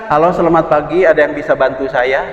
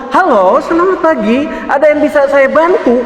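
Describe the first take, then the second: First: It is said weakly, with little energy. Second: It is said loudly and energetically.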